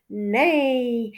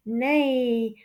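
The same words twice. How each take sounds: The two takes are said the same way.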